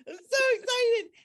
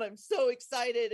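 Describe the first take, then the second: First: High, loud burst of joy; excited. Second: Said in the usual way. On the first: Real, not acted. Telling a friend about the whale, high and excited. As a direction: still thrilled as she tells it.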